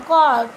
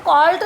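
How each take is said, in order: First: ਕਾਲਟ louder, the final T barely sounded; softened final T. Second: ਕਾਲਟ with a clearly sounded final T; T fully sounded. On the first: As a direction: model ਕਾਲਟ firmly, letting the T almost vanish. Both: Shown as a demonstration. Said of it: "ਇਹਨੂੰ ਕਾਲਟ ਨਹੀਂ ਬੋਲਣਾ".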